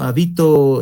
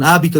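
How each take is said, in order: First: The stress falls on the second syllable. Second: The stress falls on the first syllable. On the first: It says where someone lives. "y habito sería el acento prosódico" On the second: It names a habit. "hábito, con tilde, que sería con acento gráfico"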